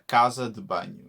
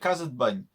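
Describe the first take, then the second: First: Each word is said fully, vowel in 'de' kept. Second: The vowel of 'de' is dropped, words run together. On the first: "in the traditional Portuguese accent" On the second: "in the Algarvian accent"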